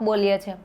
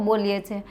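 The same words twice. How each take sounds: The two takes are said the same way.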